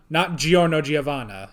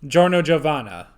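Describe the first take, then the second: First: The i after the G is sounded. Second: The i after the G is silent. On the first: The speaker calls it wrong. "not Giorno Giovanna, as I thought it was" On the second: The speaker calls it right. "That that I is some is a bit silent"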